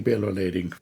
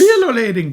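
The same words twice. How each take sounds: First: Bill O'Lading dropped very low and quiet. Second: High. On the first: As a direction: sink Bill O'Lading deep and soft. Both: Shown as a demonstration.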